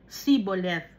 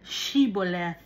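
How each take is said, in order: First: The word begins with a plain 's' sound. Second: The word begins with an 'sh' sound. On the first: The speaker calls it wrong. "yung pagsasalita ng mga Ephraimites, ... Wala silang H" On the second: The speaker calls it right. "Ang uh, pagpupronounce"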